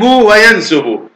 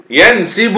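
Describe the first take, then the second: First: وينسب said slowly as "wa-yansubu"; damma on the sin. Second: ينسب said slowly as "yansibu"; kasra on the sin. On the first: Teacher repeating the second allowed form slowly, وينسب as "wa-yansubu". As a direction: give وينسب a clear u: wa-yan-SU-bu. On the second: Teacher repeating the first allowed form slowly, ينسب as "yansibu". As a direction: draw out the i in ينسب: yan-SI-bu. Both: Shown as a demonstration. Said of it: "الضم والكسر".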